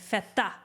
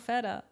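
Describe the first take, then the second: First: It is said with a Greek pronunciation. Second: It is said with an American pronunciation. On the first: The speaker calls it right. "You gotta say feta" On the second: The speaker calls it wrong. "you're not even saying it right"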